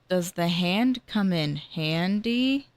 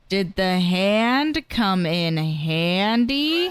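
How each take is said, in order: First: It is said at a normal, quieter volume. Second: It is said louder than before.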